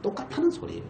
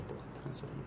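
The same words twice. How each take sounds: First: Said in the usual way. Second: Breathy whisper, almost to himself; whispered repeat. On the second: Shown as a demonstration. Preacher echoing his point to the congregation, whispered. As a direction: let it sink in with a whisper.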